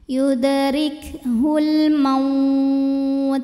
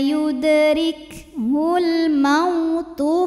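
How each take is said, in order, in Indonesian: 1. Berakhir dengan t yang terhenti, vokalnya dipanjangkan. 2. Berakhir dengan vokal tambahan, vokalnya dibaca pendek. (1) "kalau berhenti ini boleh panjang dua, empat atau enam harokat" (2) "dilembutin aja"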